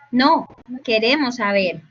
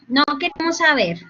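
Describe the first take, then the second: First: There is a pause after the word no. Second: It runs on with no pause after no. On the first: They do want to know. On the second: They do not want to know.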